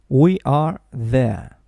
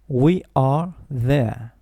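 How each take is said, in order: Both takes have the same delivery.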